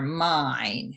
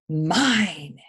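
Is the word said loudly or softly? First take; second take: softly; loudly. First: The word is said at normal, softer volume. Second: The word is said loudly and forcefully. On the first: The speaker calls it wrong. "I should have said that louder" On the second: The speaker calls it right. "because they're in all capital letters"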